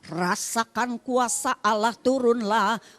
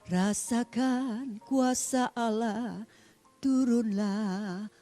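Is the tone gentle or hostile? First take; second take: hostile; gentle. First: It is said in a hostile, cursing tone. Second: It is said in a gentle, blessing tone.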